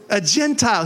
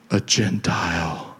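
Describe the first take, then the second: First: Said in the usual way. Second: Very low, slow creepy voice. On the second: Shown as a demonstration. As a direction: drop it deep and draw it out creepily. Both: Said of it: "use that creepy voice".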